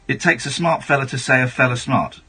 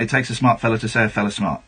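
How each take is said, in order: First: It is said slowly. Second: It is said fast.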